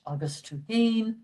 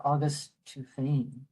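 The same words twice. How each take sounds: First: "Tuhane" with a breathed H on the last syllable; "August Tuhane" with the F silenced to an H; H pronunciation. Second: "Tuhane" said with an F in place of the H; "August Tuhane" with the written F sounded; F pronunciation. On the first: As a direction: say "Tuhane" as too-HANE. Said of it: "can be pronounced either way". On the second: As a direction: say "Tuhane" as too-FANE. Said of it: "It depends on the dialect". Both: Shown as a demonstration.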